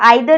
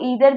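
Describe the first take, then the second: First: The word is said with a British pronunciation. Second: The word is said with an American pronunciation. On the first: "इसकी British pronunciation है" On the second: "American pronunciation इसकी है"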